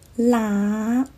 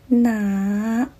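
First: The word begins with an L sound. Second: The word begins with an N sound. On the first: The speaker calls it wrong. "他们把那发成了声母，就是啦啦" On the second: The speaker calls it right. "我是喜欢坚持用呢开头的哪"

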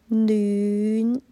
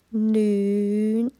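No difference in how they are said.

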